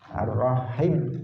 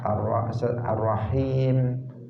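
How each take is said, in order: First: The vowel after the H is short. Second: The vowel after the H is long. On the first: The speaker calls it wrong. "itu tidak tidak pas" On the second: The speaker calls it right. "di situ ada matnya setelah ha"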